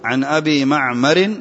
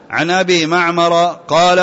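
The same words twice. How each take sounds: First: معمر ending in -in, "ma'marin"; corrected معمر with a final "-rin"; معمر with tanween. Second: معمر ending in a short -a, "ma'mara"; no final n on معمر, just "-a"; معمر without tanween. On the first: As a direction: give معمر its genitive nunation, "ma'marin". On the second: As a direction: read معمر as a diptote, "ma'mara". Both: Real, not acted. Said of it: "لأنه معمر ما هو ممنوع من الصرف".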